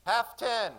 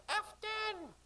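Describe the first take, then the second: First: High loud depth call. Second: Put-on high sing-song child voices; sing-song children. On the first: Acted. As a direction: sing it out from the bow. Call from the bow. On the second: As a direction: mimic the children singsong. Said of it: "sing-song voices of the children".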